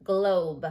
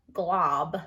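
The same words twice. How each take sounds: First: Globe with long oh. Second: Glob with short ah. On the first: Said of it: "I heard a long O sound". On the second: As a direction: say glob with the ah of hot. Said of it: "like a glob of paint". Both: Shown as a demonstration.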